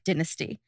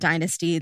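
First: It is said with a British pronunciation. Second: It is said with an American pronunciation.

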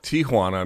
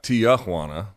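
First: The name is said with Spanish-style pronunciation. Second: The name is said with anglicized pronunciation. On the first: The speaker calls it right. "the first thing you could do is call it Tijuana" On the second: The speaker calls it wrong. "not Tijuana"

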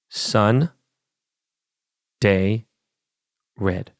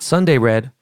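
First: Sun and day are said as separate words. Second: Sunday is run together as one word. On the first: The speaker calls it right. "Yes, three words" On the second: The speaker calls it wrong. "Not Sunday Red"

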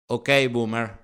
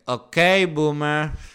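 First: It is said in a neutral tone. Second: It is said in a mocking tone.

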